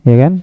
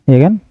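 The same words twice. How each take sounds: The two takes are said the same way.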